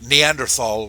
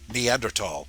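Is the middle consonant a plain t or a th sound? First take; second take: th sound; plain t. First: The word has a th sound in the middle. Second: The word has a plain t sound in the middle.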